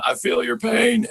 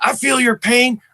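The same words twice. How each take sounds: First: High, raspy Southern impression; Bill Clinton. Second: High, Eastwood-like rasp; Joe Biden. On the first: Comedian quoting a former president's catchphrase, high Southern rasp. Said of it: "Bill Clinton used to say". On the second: Acted. Comedian as a sympathetic president, high raspy impression. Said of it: "sort of Clint Eastwood raspy".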